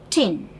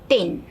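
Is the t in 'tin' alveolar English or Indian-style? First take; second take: alveolar English; Indian-style. First: The t is made with the tongue on the ridge. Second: The t is made the Indian way. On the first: The speaker calls it right. "pronounced as tin" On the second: The speaker calls it wrong. "not tin"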